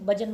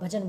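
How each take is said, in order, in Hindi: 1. पहला व्यंजन अल्पप्राण है, इसमें कोई फुसफुसाती ध्वनि नहीं निकलती। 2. पहला व्यंजन महाप्राण है, इसमें फुसफुसाती ध्वनि के साथ हवा निकलती है। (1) "तुम भजन मत बोलो" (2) "भजन बोलो"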